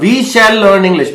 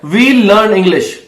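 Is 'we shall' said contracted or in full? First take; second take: full; contracted. First: We and shall are said as two full words. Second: We and shall merge into one short syllable. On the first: The speaker calls it wrong. "अगर grammar में जाओगे तो शैल आ जाएगा" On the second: The speaker calls it right. "सो यहां पे भी वही है"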